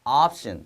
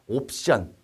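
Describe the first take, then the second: First: It is said with a long, open, jaw-lowered vowel. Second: It is said with a Korean-style vowel. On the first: "미국이나 이제 영국권 가셔서는요" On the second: "한국적이죠"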